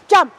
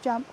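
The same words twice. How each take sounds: First: The word is said strongly and firmly. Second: The word is said softly and gently. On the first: The dog is released to go to the obstacle. "release with a stronger" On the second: The dog should focus on the obstacle. "I give a soft focus and obstacle word"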